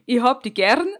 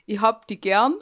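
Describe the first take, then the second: First: Bavarian "gern" with a rolled r and more push; retry with a rolled r on "gern"; correcting her Bavarian by rolling the r. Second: A light try at Bavarian, r barely rolled; half-confident Bavarian "Ich hab die gern"; Bavarian accent. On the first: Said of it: "da musst du das R mehr rollen". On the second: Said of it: "also hier das Bayerische". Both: Shown as a demonstration.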